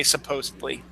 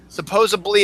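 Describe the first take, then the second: First: Supposedly as "suh-POZE-id-lee"; correct pronunciation. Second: Supposedly said as "suh-POZE-uh-blee"; B in place of D in supposedly; mispronunciation. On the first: Host naming the intended word, correct pronunciation. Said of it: "when you're trying to say supposedly". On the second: Host naming the wrong form, mispronounced. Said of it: "is not right when you're trying". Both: Shown as a demonstration.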